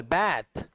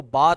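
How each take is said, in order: First: बैथ with a drawn-out "a" as in cat; American long vowel. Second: बाथ with an open "ah" vowel; British bath. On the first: Teacher demonstrating American बैथ, long flat-a vowel. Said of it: "थोड़ा सा long vowel". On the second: Teacher demonstrating British बाथ, open ah. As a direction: say बाथ as "bahth". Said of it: "British इसको बाथ पढ़ते हैं". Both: Shown as a demonstration.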